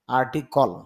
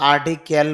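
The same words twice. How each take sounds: First: আর্টিকল ending in a reduced "-kol"; no e before the l in আর্টিকল; IPA pronunciation. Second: আর্টিকেল ending in a clear "-kel"; common local pronunciation. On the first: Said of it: "IPA তে দেখা যাচ্ছে আর্টিকেল না". (আর্টিকল, শেষে "কল") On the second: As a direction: say আর্টিকেল with a full e before the l. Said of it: "যদিও আমরা আর্টিকেল বলি". (আর্টিকেল, শেষে "কেল") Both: Shown as a demonstration.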